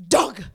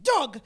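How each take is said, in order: First: Loud, proud little shout of a name; toddler announcing. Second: Loud, bright little shout of the name; toddler announcing. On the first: Toddler greeting a passerby, a loud happy shout. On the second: Baby kicking in the sling, shouting a name loudly. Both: Retold or imitated. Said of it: "he would announce".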